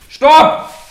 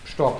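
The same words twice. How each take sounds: First: The command is said in a firm, forceful way. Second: The command is said in a friendly way. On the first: A stronger warning after politeness failed. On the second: A polite first warning to keep distance.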